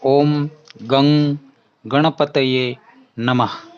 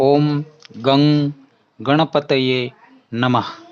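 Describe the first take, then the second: First: The second word is said as 'gang'. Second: The same.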